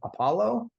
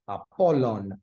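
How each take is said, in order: First: The name ends in a vowel, no final n. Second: The name ends with a final n sound. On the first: This is the later, shortened form. The speaker calls it wrong. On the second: This is the original Greek form. The speaker calls it right.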